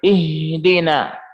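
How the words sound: The h is said with clearly flowing breath. The speaker calls it right. "Nafas harus mengalir"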